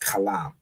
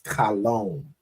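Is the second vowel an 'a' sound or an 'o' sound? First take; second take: a; o. First: The second vowel is an 'a' sound. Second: The second vowel is an 'o' sound. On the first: The speaker calls it right. "but really, you know, it's kalam" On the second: The speaker calls it wrong. "he added this this y in here to make an o sound"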